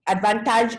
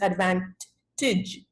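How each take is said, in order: First: The last syllable does not sound like 'tidge'. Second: The last syllable sounds like 'tidge'. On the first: The speaker calls it wrong. "that's bad English. Advantage is not a word" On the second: The speaker calls it right. "it's advantage, tidge"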